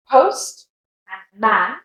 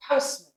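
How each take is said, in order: First: Post, a gap, then man with full A; separate words. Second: Postman as one word, man shrunk to "mun"; joined with schwa. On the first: Teacher splitting postman for learners, separate words. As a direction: post and man as two stand-alone words. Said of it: "Give them as two separate words". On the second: Teacher showing the joined word postman, schwa ending. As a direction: softly say postman, weak "uh" at the end. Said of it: "However, if it's together". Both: Shown as a demonstration.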